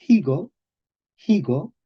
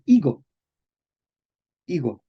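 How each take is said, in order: First: Higo with a sounded, breathy H; aspirated H. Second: Higo starting straight on the I; silent H. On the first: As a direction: start higo on a puff of air, like "hee-go". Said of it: "la F se velariza". (higo con H aspirada) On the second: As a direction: drop the H of higo, say "igo". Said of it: "con P veintiocho". (higo con la H muda) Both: Shown as a demonstration.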